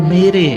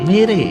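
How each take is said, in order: The two takes are said the same way.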